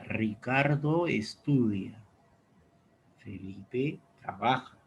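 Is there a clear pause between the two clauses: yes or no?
yes. It is read with a longer pause between clauses.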